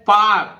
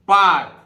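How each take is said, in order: No difference in how they are said.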